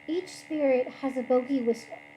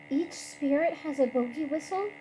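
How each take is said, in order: First: It is said as a flat statement, falling. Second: It is said as a disbelieving question, rising.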